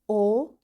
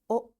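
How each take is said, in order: First: The letter is said with its long vowel sound. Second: The letter is said with its short vowel sound. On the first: "it is long vowel sound" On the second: "this is short vowel sound"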